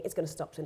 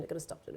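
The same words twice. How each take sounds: First: Said in the usual way. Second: The same words whispered under the breath; whispered repeat. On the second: Retold or imitated. Recalling the panic attack on the plane, whispered repeat. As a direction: whisper it to yourself as if pleading. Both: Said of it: "I kept thinking".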